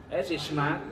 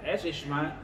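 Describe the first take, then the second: Both takes have the same delivery.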